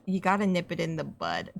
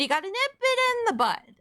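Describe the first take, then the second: First: Said in the usual way. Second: High, chirpy cartoon voice; Pinkie Pie. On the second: Real, not acted. Streamer slipping into a cartoon voice, high and peppy. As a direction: pitch it way up, perky and bouncy. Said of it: "I said it like fucking Pinkie Pie".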